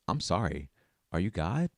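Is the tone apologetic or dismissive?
apologetic. It sounds apologetic and sincere, like a real question. An apology for not noticing God's presence. "It's kind of like a question to God"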